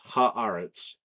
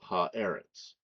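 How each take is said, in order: First: The vowel after 'ha' is an 'ah' sound. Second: The vowel after 'ha' is an 'eh' sound. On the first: "the initial eh becomes an ah" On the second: "instead of"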